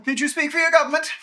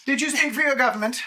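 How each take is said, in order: First: Loud, fast, imperious demand; booming arrogant alien overlord. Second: Booming arrogant alien overlord. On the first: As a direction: press the question haughtily. GM voices dragon repeating question. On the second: GM voices dragon questioning. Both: Acted.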